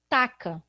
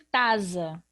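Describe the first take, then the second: First: The middle consonant is a k sound. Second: The middle consonant is a z sound. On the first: "eu vou arrumar outro problema" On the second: "ele vai ter som de Z"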